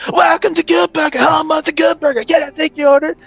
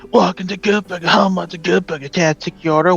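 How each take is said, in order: First: It is said with high energy. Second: It is said with low energy.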